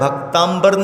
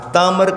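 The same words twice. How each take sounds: First: The middle is an 'mb' sound. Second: The middle is a plain 'm' sound. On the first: It means devotees and sky. The speaker calls it wrong. "नहीं कहा जाता" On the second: It means devotees and gods. The speaker calls it right. "कहा जाता"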